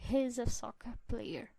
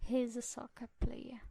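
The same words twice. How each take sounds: Both takes have the same delivery.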